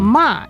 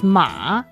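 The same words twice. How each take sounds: First: It is said with a tone other than third. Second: It is said with the third tone. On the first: It means to scold. "is like the scold" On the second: It means horse. "the third tone, the horse"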